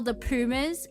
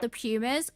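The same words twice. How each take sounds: First: Pumas is said with a Spanish-style pronunciation. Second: Pumas is said with an Australian English pronunciation. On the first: "if you want to say it how they say it" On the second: "the way that Australians pronounce stuff is the right way"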